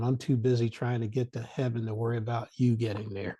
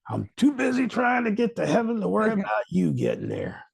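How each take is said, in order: First: It is said plainly, with little force. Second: It is said forcefully, with more energy.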